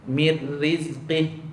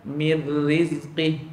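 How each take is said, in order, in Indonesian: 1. Bunyi akhir dipotong tiba-tiba. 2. Bunyi akhir dipotong tiba-tiba.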